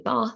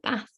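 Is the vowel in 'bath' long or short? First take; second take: long; short. First: The vowel is a long 'ah' sound. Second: The vowel is a short 'a' sound. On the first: This is the southern regional pronunciation. "A as in R, which is my regional variation, being from the south" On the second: This is another regional pronunciation.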